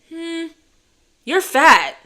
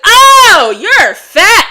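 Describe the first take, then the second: First: It is said quietly and calmly. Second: It is said loudly, out loud.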